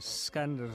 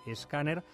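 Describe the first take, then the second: First: The word begins directly with an s sound. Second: The word begins with an added e vowel.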